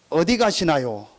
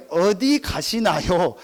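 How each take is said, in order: First: Said in the usual way. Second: Put-on 어디 가시나요 drawn out slowly, 가시나 heard as girl; 가시나 말장난을 살려 천천히; slow stressed. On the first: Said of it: "택시 운전기사가 할머니한테 물은". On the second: Shown as a demonstration. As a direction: stretch 어디 가시나요 to set up the pun. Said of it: "가시나라는 말이".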